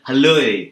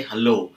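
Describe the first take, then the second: First: "hello" with the final O bent into an E glide; Australian hello. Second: Said in the usual way. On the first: Shown as a demonstration. Teacher showing learners how Australians greet, "hello" with O gliding into E. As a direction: punch "hello" Australian-style, ending on an E sound. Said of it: "They will say hello". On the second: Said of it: "they will not say hello".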